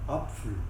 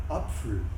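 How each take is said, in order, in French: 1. La consonne du milieu est un son pf. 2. La consonne du milieu est un son pf.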